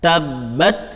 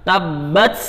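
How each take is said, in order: First: The final t releases a small puff of air. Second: The final t releases an s-like hiss. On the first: The speaker calls it right. "kita keluarkan sedikit hawa" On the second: The speaker calls it wrong. "jangan sampai ada kayak suara S ... ini bacaannya salah"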